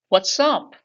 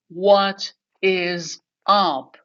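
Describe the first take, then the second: First: It is said quickly and smoothly. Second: It is said slowly, word by word.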